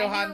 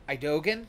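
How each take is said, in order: First: The middle consonant is an H sound. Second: The middle consonant is a hard G. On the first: The speaker calls it right. "I knew it was a H sounding" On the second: The speaker calls it wrong. "it's not G"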